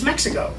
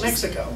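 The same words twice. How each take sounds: First: It is said with a Spanish-style pronunciation. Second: It is said with a plain English pronunciation. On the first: "It's Mexico" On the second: "but just call it Mexico"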